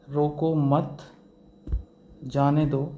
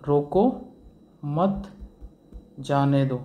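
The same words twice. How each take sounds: First: "रोको मत" एक साथ, फिर "जाने दो"; "मत" के बाद कॉमा जैसा ठहराव; pause after मत. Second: "रोको" ऊँचे और ज़ोर से, फिर रुककर "मत जाने दो"; "रोको" के बाद ठहराव, कॉमा की तरह; pause after रोको. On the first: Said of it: "इसी कॉमा को अगर हम लगा देते हैं". (रोको मत के बाद रुकें) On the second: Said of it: "और इसी कॉमा को अगर हम लगा देते हैं". (रोको के बाद रुकें) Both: Shown as a demonstration.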